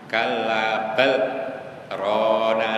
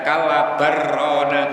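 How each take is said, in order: First: A brief held-breath pause splits the phrase. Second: It runs straight on, with the l merged away. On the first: The speaker calls it right. "cara membacanya harus sakta" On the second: The speaker calls it wrong. "Tidak boleh dibaca kalla barrona gitu, tidak boleh"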